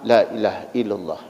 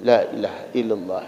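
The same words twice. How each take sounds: No difference in how they are said.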